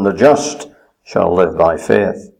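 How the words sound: The word just is stressed.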